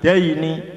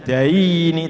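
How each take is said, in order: First: The diphthong glides clearly to an i sound. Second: The diphthong is flattened, not ending in i. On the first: The speaker calls it right. "tapi daini; bacaannya seperti membaca i" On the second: The speaker calls it wrong. "jangan daini; miring itu namanya"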